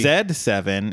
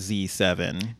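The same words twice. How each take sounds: First: The letter is said the English way, 'zed'. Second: The letter is said the American way, 'zee'.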